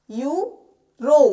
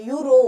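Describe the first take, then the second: First: euro very slowly, यू rising, a gap, then a loud रो; split into syllables. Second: Said in the usual way. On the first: Shown as a demonstration. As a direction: stretch euro into two separate beats, यू ... रो. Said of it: "ई और य को मिलाया तो यू". (Euro को तोड़कर, बहुत धीरे: यू ... रो) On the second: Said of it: "ओ का जो साउंड आ रहा है".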